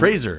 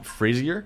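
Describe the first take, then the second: First: The ending rhymes with razor. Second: The ending does not rhyme with razor. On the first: The speaker calls it right. "like a razor" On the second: The speaker calls it wrong. "Am I saying that right?"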